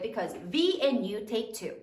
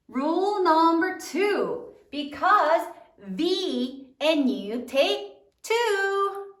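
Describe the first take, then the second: First: Said in the usual way. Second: Drawn-out classroom chant; slow, emphatic teacher recitation; slow recited rule. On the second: Shown as a demonstration. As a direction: stretch each word like a memory rule for the class.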